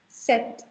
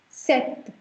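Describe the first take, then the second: First: The P sound is silent in the word. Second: The P sound is silent in the word.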